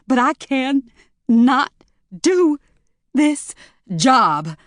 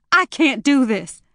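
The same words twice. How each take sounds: First: "can", "not", "do", "this", "job" split by pauses, high and loud; slow, loud word-by-word insistence; each word stressed apart. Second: Panicked. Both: Acted. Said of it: "almost hyperventilating".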